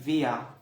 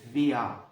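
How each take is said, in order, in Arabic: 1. الكلمة تنتهي بصوت شبيه بحرف العلة a. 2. الكلمة تنتهي بصوت شبيه بحرف العلة a.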